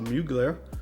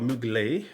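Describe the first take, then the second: First: The name is said in a plain, everyday way. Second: The name is said in a fancier, refined way.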